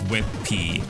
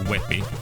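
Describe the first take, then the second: First: The word ends with the letter name 'pee'. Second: The word sounds like 'webby' with no P. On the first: The speaker calls it wrong. "not as WebP, as I pronounced it before" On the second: The speaker calls it right. "the format is pronounced Webby"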